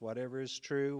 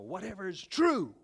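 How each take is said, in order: First: It is read flatly, without a preaching rhythm. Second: It is read with a rhythmic, energetic preaching cadence. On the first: The speaker calls it wrong. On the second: The speaker calls it right.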